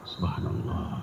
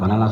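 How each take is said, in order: First: The phrase is said slowly and calmly. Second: The phrase is said quickly and hurriedly. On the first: This is the best way to do remembrance. The speaker calls it right. "zikir yang paling baik pelan" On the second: It has no effect. The speaker calls it wrong. "Coba kalau cepat"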